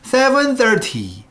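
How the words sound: Seven is loud and thirty drops away.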